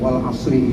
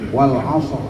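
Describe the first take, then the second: First: The r is light, followed by an i vowel. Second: The r is heavy, ending the word with no vowel. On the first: The reciter continues without stopping. "yang harokat kasroh seperti ini, wal asri ini, maka dihukumi tarkib" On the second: The reciter stops on the word. "asr ro-nya jadi tabkhim"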